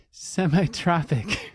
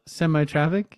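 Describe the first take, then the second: First: Slow, laughing through the word; giggling as the word comes out. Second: Quizzical. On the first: Host laughs repeating the guest's odd word, laughing. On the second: Co-host repeats the odd word back to his partner, puzzled. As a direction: echo semi-tropic back as a puzzled question. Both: Real, not acted.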